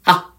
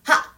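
First: The voice is supported from the belly, resonant. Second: The voice is pushed from the throat.

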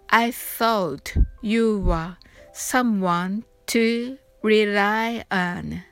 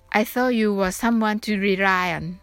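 First: The line is spoken at a slow pace. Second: The line is spoken at a fast pace. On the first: "それではゆっくり発音してみましょう。" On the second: "それでは早く言ってみましょう。"

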